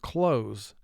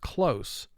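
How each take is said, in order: First: The final consonant is a buzzing z sound. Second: The final consonant is a hissing s sound. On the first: To shut, as in shutting a door. "the S would be representing its second sound" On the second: Near, as in a narrow escape. "The top word is the way I just pronounced it"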